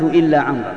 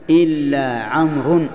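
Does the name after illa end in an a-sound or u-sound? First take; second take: a-sound; u-sound. First: The name ends with an a-sound. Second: The name ends with a u-sound. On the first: The name correctly takes the accusative case. The speaker calls it right. "والصواب" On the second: The name is wrongly given the nominative case. The speaker calls it wrong. "قد أخطأت"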